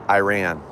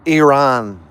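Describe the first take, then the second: First: The name has a typical American English pronunciation. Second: The name has a Persian-style pronunciation. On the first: "I say Ir- Iran like the rest of us" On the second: "you pronounce it Iran"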